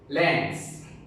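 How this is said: The word is said in an American accent. "American accent"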